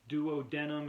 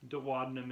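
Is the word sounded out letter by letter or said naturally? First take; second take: letter by letter; naturally. First: Every letter is sounded out fully. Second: It is said in the usual spoken way. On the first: "is how you'd spell it" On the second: "is how you say it"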